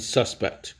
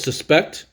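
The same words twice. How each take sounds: First: Suspect as the noun, SUS-pect, dropping away after SUS; stress on first syllable. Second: Suspect as the verb, sus-PECT, pitch lifted on PECT; stress on second syllable. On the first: Teacher showing students the noun suspect, stressed on the first syllable. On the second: Teacher showing students the verb suspect, stressed on the second syllable. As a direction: say suspect with a weak first syllable and a punched PECT. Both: Shown as a demonstration. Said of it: "two ways to say this".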